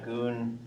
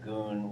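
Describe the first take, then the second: First: The word is said with a high tone. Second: The word is said with a low tone. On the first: It means gold. "which is high tone" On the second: It means a spring of water. "which is low tone"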